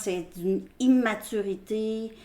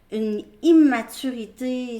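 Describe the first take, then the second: First: Said in the usual way. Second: "immaturité" repeated much louder and slow; stress on immaturité. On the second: Real, not acted. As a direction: hammer "immaturité" home, syllable by syllable.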